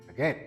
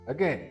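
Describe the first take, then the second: No difference in how they are said.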